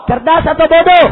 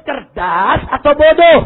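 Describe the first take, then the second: First: Loud, pressing either-or question; rallying shout. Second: Said in the usual way. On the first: Real, not acted. Preacher asks if the decree is smart or stupid, rallying shout. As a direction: demand the crowd's verdict. Repeats louder to the crowd.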